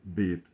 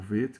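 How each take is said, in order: First: The word begins with a b sound. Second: The word begins with a v sound. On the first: The letter has a dot in the middle. "o B ou o V" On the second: The letter has no dot in the middle. "o V"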